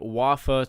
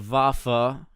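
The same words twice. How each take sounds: First: The word begins with a W sound. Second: The word begins with a V sound. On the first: The speaker calls it wrong. "It is not the Waffe twenty-eight" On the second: The speaker calls it right. "it is the Waffe. You pronounce a W as a V"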